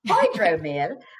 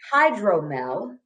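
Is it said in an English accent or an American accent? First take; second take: English; American. First: It is said in a put-on English accent. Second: It is said in the speaker's own American accent.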